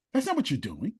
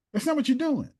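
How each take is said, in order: First: Said in the usual way. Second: Much higher, stress on not; emphatic repeat. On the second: Real, not acted. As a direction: hammer the point home a second time.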